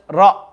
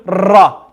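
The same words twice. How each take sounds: First: "Ra" with a light shiver; just lightly trill "Ra"; slight trill. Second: "Ra" with too much trill; over-roll "Ra"; overdone trill. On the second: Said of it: "Don't do". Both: Shown as a demonstration.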